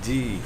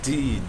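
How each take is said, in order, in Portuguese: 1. Começa com um "d" forte e a vogal e. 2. Começa com um "d" forte e a vogal e.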